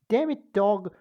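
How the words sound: It is said in a put-on British character voice. "This is going to be my my uh, my Stewie voice"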